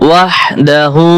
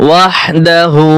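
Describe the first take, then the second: The two takes are said the same way.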